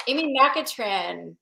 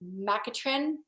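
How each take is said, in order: First: AMY MACATRIN read out slowly and surely; slow announcement. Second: MACATRIN said softly with a questioning rise; unsure rising question. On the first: Host naming the giveaway winner, Amy Macatrin in a slow, settled announcement. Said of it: "the name that just keeps popping out". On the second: Host checking the winner's last name, Macatrin as a soft, unsure question. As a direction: try out Macatrin tentatively, quietly, ending upward. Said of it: "how do you say her last name?". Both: Real, not acted.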